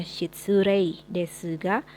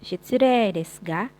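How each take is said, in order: First: Shitsurei desu ga read as written, ei spelled out; spelling form. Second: Shitsurei desu ga with the ei as a long e, shitsuree; long e in shitsurei, slow and louder; teacher shows the true reading; correct reading. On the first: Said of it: "Sekalipun ditulisnya ... tapi dibacanya". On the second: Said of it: "tapi dibacanya". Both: Shown as a demonstration.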